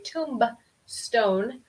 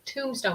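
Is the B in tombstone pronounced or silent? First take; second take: pronounced; silent. First: The B sound is pronounced. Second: The B sound is silent. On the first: The speaker calls it wrong. "We don't want to say" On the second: The speaker calls it right. "una B muda"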